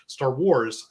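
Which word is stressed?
Wars. The stress falls on the word Wars. It contrasts the title with Star Trek. The speaker calls it wrong. "I normally don't say Star Wars"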